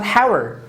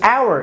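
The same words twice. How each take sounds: First: The initial h is pronounced. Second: The initial h is silent. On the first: The speaker calls it wrong. "It's not hour" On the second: The speaker calls it right. "this is hour"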